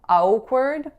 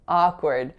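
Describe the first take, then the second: First: The first vowel glides into a rounded w. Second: The first vowel is a plain open ah. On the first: The speaker calls it wrong. "first ah sound kind of being finished by a rounded w sound" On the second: The speaker calls it right. "it's really just ah"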